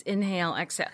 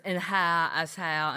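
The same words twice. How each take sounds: First: "inhale, exhale" said crisply with a clear long A, "in-HAYL, ex-HAYL"; correct inhale. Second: "Inhale, exhale" with the vowels slurred open, like "in-hah, ex-hah-la"; L.A. yoga teacher's inhale. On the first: Shown as a demonstration. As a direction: correct her: "inhale, exhale" plainly and firmly. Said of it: "it's inhale, exhale". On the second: Retold or imitated. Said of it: "a girl from L A is teaching the yoga class".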